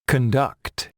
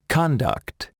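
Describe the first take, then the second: First: Conduct stressed on the second syllable, con-DUCT; verb stress. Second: Conduct stressed on the first syllable, CON-duct; noun stress. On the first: Teacher models the verb, stress on the second syllable. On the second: Teacher models the noun, stress on the first syllable. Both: Shown as a demonstration. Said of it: "Listen and practice".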